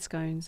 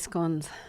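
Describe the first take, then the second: First: It is said with the American pronunciation. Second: It is said with the Australian pronunciation. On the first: This is how Americans say it. "Americans say scones" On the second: This is how Australians say it. "We say scones"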